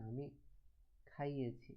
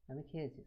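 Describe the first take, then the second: First: Says খাইয়েছি with the causative ই, "have fed"; careful correction to খাইয়েছি; corrected take. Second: Says খেয়েছি, "have eaten"; wrong first take. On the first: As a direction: fix it to খাইয়েছি. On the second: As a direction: slip into খেয়েছি before the correction. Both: Shown as a demonstration. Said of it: "sorry".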